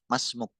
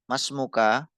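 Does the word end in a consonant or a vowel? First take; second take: consonant; vowel. First: The word ends on a consonant, without a final vowel. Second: The word ends with a short final vowel. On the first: It is the pausal reading. "Kalau dibaca waqaf" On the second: It is the full reading, with every vowel shown. "Kalau mau diperlihatkan harokatnya"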